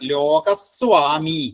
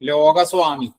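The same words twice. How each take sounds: First: The 'sw' cluster is said fully and distinctly. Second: The 'sw' cluster is said lightly and weakly. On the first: The speaker calls it right. "കാരണം സ്വ എന്നുള്ളത് കൂട്ടക്ഷരാണ്" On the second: The speaker calls it wrong. "അത് പോരാ"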